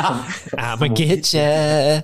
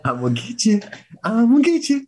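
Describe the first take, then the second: First: Slow creepy drawn-out growl; slow creepy monster voice. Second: Building monster shriek. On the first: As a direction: drag it out like a lurking monster. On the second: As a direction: rise from a creep to a screech. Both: Pretend. Repeating Striga threat.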